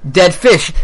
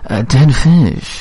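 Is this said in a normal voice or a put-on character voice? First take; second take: normal; put-on. First: It is said in the speaker's ordinary voice. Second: It is said in a put-on character voice.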